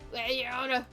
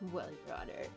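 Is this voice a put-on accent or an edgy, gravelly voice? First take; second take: accent; edgy. First: It is spoken in a put-on accent. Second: It is spoken in an edgy, gravelly voice. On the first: "The accent gets worse" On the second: "give him like an edgy voice"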